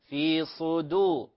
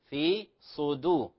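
The two takes are said the same way.

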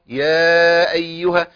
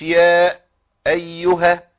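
First: The two words run together without a break. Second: The voice stops between words, doubling the glottal stop. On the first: The speaker calls it right. "لا لازم أوصل يا أيها" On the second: The speaker calls it wrong. "مش يا أيها"

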